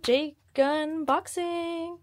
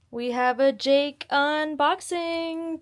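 First: Higher, slow stretched call; drawn-out high chant; sing-song title. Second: High, slow announcement; drawn-out high presenter call; announcer-ish sing-song. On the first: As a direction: sing it out like a cheer. Repeats title higher, slower. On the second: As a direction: announce it like a show title. Announcing dog's unboxing. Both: Acted.

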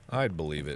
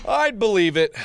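First: Low, soft afterthought; subdued concession. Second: Higher, louder exclamation; emphatic concession. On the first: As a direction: drop it to a low murmur. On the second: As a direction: call it out emphatically. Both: Real, not acted. Repeating the line to self.

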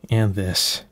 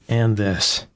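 The two takes are said the same way.

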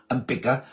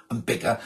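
The two takes are said the same way.

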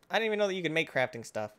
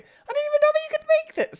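First: Said in the usual way. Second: Much higher and louder, squeaky and amazed; squeaky surprise. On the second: Acted. Gamer amazed that crafting exists, in a squeaky high shout. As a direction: shriek it out in a cartoon-high voice.

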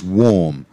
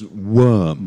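First: WARM with a long AW vowel; warm pronunciation. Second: WORM with an ER vowel; worm pronunciation. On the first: Teacher showing how warm is said, AW vowel. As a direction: say WARM slowly, as WAWM. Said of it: "It looks like warm, actually, but". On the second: Teacher showing how it is pronounced, ER vowel. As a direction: say WORM slowly, as WURM. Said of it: "this is pronounced". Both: Shown as a demonstration.

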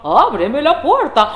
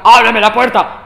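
First: Slow, higher sing-out as fake mother; wolf's disguised voice. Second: Loud, rough first try; wolf practising. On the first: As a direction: stretch it sweetly, swooping up. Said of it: "la voz le salió diferente". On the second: Acted. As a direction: bellow it as the wolf rehearsing. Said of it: "De pronto comenzó a practicar".

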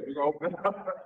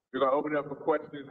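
First: Said in the usual way. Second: Laughs while rushing the line out, fast; a sheepish chuckle at himself; laughing. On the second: Real, not acted. Speaker opening the floor to the audience, laughing quickly.

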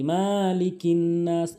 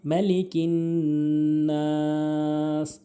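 First: মালিকিন with an open, drawn-out "maa"; mistaken stretching. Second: মালিকিন short, then নাস held very long; correct recitation. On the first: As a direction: wrongly lengthen the first syllable of মালিকিন. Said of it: "আমরা অনেকে টেনে বলি". (মালিকিন-এর মা ভুলভাবে টেনে) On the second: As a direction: chant মালিকিন and stretch নাস for three counts. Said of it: "তিন আলিফ করে টেনে পড়বো". (মালিকিন শেষে নাস লম্বা টেনে) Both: Shown as a demonstration.

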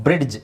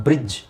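First: ಬ್ರಿಡ್ಜ್ with an audible d before the j; D pronounced. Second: ಬ್ರಿಡ್ಜ್ said as brij, no d; silent D. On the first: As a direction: sound out the d in ಬ್ರಿಡ್ಜ್, brid-j. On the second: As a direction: drop the d in ಬ್ರಿಡ್ಜ್. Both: Shown as a demonstration. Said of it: "ಡಿ silent ಮಾಡ್ಬೇಕು".

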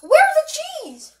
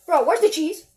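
First: High-pitched, drawn-out panicked question; frantic demand. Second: Said in the usual way. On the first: Acted. Cook demanding the missing cheese from bro, high and frantic.

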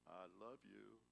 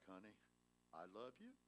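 First: Said in the usual way. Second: A lightly voiced sweet wife, soft and quiet; tender, sweet. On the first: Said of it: "Honey, what did I tell you?". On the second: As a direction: answer him softly, with gentle sweetness. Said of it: "in that tender, sweet, angelic voice".

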